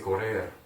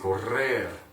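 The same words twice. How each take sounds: First: The middle R is a single quick tap. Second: The middle R is a long rolled trill. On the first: The speaker calls it wrong. "you're not gonna say correr" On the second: The speaker calls it right. "you're gonna say correr"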